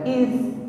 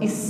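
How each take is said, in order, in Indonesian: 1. Konsonan akhir itu aliran nafas yang tipis. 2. Konsonan akhir itu bunyi desis yang tajam. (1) "Ada nafas yang mengalir tipis di situ" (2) "bukan is, bukan desisan sebagaimana mengucapkan huruf sin"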